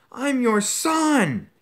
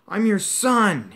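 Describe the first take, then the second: First: Very high, loud, slow cry; anguished scream. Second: High, loud, slow desperate scream. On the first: Son crying out to his father in anguish, very high. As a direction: wail it, breaking with despair. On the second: Son screaming up at his father, loud and high. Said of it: "he screamed up at Crouch". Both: Acted.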